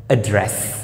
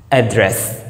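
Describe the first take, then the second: Both takes have the same delivery.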